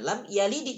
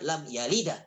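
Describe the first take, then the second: First: The final d bounces with an i-like vowel. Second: The final d bounces with an a-like vowel. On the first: The speaker calls it right. "Karena lamnya kasrah" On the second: The speaker calls it wrong.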